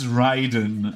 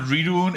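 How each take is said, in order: First: The first syllable sounds like 'ray'. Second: The first syllable sounds like 'rid'. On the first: The speaker calls it right. "it's Raiden. I need to say it correctly" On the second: The speaker calls it wrong. "it's not Ridun"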